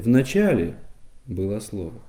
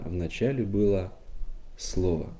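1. Главное ударение не на последнем слове. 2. Главное ударение падает на последнее слово. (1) "Это будет неверная интонация. Она смысл исказит" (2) "И последнему слову мы даем главный вес"

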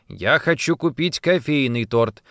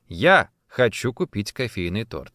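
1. Ударение на слове «кофейный». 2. Ударение на слове «я». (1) "«Кофейный», а не лимонный или клубничный" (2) "Именно я, а не моя мама или муж"

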